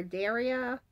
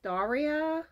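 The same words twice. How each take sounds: First: "Daria" with an "air" vowel, DAIR-ee-uh; alternative pronunciation guess. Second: "Daria" with an open "ah", DAR-ee-uh; first pronunciation guess. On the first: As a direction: say "Daria" as DARE-ee-uh. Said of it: "sorry if I'm mispronouncing your name". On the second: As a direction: say "Daria" as DAH-ree-uh. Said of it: "I think it's pronounced". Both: Shown as a demonstration.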